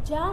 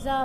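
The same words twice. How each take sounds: First: जा said "jaa" with j; rejected j sound. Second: जा said "zaa", with z; dotted z sound. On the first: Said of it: "जा नहीं पढ़ के क्या पढ़ेंगे". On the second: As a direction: give जा a buzzing z, not j. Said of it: "क्या पढ़ेंगे?". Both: Shown as a demonstration.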